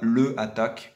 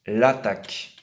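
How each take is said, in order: First: The full article is said before the verb. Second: The article is elided and joined to the verb. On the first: The speaker calls it wrong. "surtout pas le attaque, comme j'entends très souvent" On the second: The speaker calls it right. "On va devoir mettre une apostrophe"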